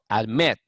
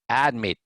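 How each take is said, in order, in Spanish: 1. El acento está en la última sílaba. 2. El acento está en la primera sílaba. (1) "digo admit" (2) "no digo admit"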